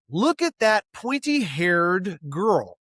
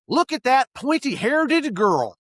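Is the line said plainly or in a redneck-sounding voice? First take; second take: plainly; redneck. First: It is said plainly, as written. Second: It is said with an extra D, redneck-style.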